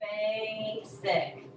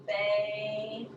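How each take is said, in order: First: Said in the usual way. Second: "Basic" with the first syllable held, then a gap; split syllables. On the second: Shown as a demonstration. Teacher showing the first syllable's end, "Basic" split in two. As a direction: break "Basic" into two slow beats. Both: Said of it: "end of the first syllable".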